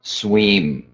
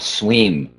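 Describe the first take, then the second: First: The vowel is a long, tense 'ee' sound. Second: The vowel is a long, tense 'ee' sound.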